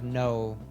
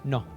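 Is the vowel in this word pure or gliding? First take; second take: gliding; pure. First: The vowel glides from o toward oo. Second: The vowel is a pure, steady o. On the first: "like we would with that oh sound" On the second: "like they would in Spanish"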